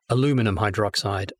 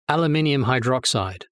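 First: The word has four syllables, a-LU-mi-num. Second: The word has five syllables, al-u-MIN-i-um. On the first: "In America, you would say aluminum" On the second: "that's the English pronunciation"

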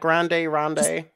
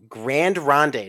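First: Grand is said the Spanish way, with an added vowel. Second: Grand is said the French way, with no added vowel. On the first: The speaker calls it wrong. "not Grande Ronde" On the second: The speaker calls it right.

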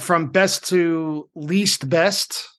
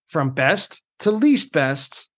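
First: It is said in the speaker's normal voice. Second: It is said in a put-on teacher voice.

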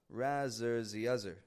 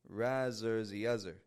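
First: The middle of 'rather' has a Z sound. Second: The middle of 'rather' has a Z sound.

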